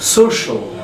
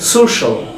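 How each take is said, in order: First: The ending is said as one syllable, shal. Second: The ending is said as one syllable, shal.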